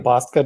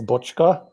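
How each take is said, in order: First: The name is said in a simplified, anglicized way. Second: The name is said with its Hungarian pronunciation. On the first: It is made easy for others to say. "I just say Boska to try to make it easy" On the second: It is the original pronunciation of the name. "The Hungarian pronunciation is Bochka"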